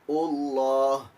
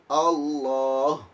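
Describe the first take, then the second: Both takes have the same delivery.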